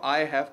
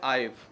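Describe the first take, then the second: First: It is said as two full separate words. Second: It is said as one contracted syllable. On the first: "आई हैव को मिला देते हैं" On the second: "मिला देते हैं"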